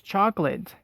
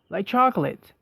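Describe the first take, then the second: First: The second syllable is nearly dropped, ending in lit. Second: Every syllable is fully pronounced, ending in late. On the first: The speaker calls it right. "the way Americans pronounce it" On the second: The speaker calls it wrong. "we are used to pronouncing every vowel or syllable"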